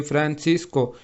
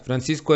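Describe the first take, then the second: First: "Francisco" broken up as fran, cis, co; split into syllables. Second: Said in the usual way. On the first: Shown as a demonstration. Teacher separating a name for students, "Francisco" said syllable by syllable. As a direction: say "Francisco" one syllable at a time. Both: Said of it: "se separa en".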